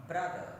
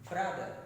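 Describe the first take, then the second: No difference in how they are said.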